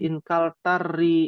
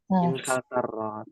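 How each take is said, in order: First: The final vowel is an 'i' sound. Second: The final vowel is an 'a' sound. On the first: The speaker calls it wrong. "Tidak boleh menjadi inkal tari" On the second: The speaker calls it right. "Dia tetap harokatnya harokat asli yaitu fathah"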